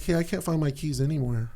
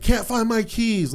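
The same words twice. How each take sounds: First: Softer, mild 'Hey, I can't find my keys anywhere'; gentle, not mean. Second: Higher, slower, exasperated 'Can't find my keys'; frustrated call. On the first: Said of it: "I was not mean". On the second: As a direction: call it out from the bedroom, fed up. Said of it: "I got frustrated ... like that". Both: Retold or imitated.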